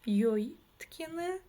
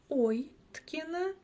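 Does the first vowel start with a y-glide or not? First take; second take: y-glide; no glide. First: The first vowel begins with a y-glide. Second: The first vowel is a plain 'o' sound. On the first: "через букву «ё»" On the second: "через букву «о»"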